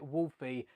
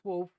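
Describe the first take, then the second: First: The name is said as two syllables. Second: The name is said as one syllable. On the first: "I always pronounce it Wolfie" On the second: "it is pronounced wolf"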